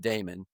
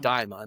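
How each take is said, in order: First: The first syllable sounds like 'day'. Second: The first syllable sounds like 'die'. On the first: "I like Damon" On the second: "or as you say, You like Diamond"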